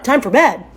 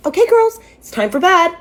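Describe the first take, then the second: First: Acted disbelief at the words; incredulous echo. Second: High, loud singsong announcement; mock a parent sending children to bed, pitched high; imitated bedtime parent. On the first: Grown daughter questioning a bedtime order, acted disbelief. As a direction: repeat it back as an absurd question. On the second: Dad's girlfriend ordering grown sisters to bed, mock-parental singsong. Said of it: "she waltzes into the living room and says".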